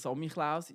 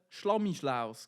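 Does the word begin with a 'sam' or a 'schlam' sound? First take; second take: sam; schlam. First: The word begins with a plain 'sam' sound. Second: The word begins with a 'schlam' sound. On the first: The speaker calls it right. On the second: The speaker calls it wrong.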